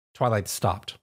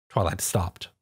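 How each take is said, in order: Both takes have the same delivery.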